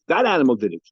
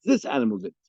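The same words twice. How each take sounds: First: "That" hit loud, pointing at one animal; stress on That. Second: Contrastive "This" at the start, then falling away; stress on This. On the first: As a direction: accuse by punching the word "That". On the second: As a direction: counter with the weight on "This". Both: Acted. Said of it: "talking about two different animals".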